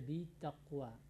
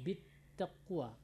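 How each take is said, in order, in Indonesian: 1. Bunyi t sebelum taqwa tunggal. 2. Bunyi t sebelum taqwa dobel.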